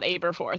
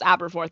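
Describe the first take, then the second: First: The first syllable sounds like 'abe'. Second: The first syllable sounds like 'ab'. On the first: The speaker calls it wrong. "not Aberforth" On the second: The speaker calls it right. "that's why I'm pretty sure it's pronounced Aberforth"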